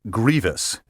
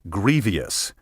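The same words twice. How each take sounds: First: It is said in two syllables, 'gree-vus'. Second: It is said in three syllables, 'gree-vee-us'. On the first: The speaker calls it right. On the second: The speaker calls it wrong.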